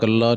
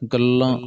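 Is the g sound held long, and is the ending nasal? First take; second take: long, oral; long, nasal. First: The g is long and the ending is oral. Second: The g is long and the ending is nasal. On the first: The speaker calls it wrong. "ਗਲਾ ਜਾਂ ਗੱਲਾ ਨਹੀਂ ਕਹਿਣਾ" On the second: The speaker calls it right. "ਗੱਗੇ ਅਦਕ ਵੀ ਲਾਉਣੀ ਹੈ, ਲੱਲੇ ਨੂੰ ਬਿੰਦੀ ਵੀ ਲਾਉਣੀ ਹੈ"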